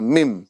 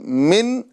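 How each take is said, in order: First: The syllable ends with an m sound. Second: The syllable ends with an n sound. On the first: The speaker calls it right. "बल्कि मिम पढ़ा जाएगा" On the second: The speaker calls it wrong. "मीम दो ज़ेर मिन ये नहीं पढ़ा जाएगा"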